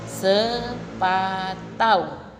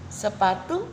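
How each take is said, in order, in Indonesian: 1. Kata itu berakhir dengan bunyi au. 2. Kata itu berakhir dengan bunyi u biasa.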